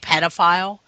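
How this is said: It is said the American way.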